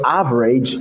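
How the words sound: The middle consonant is a 'j' sound. "Instead of average"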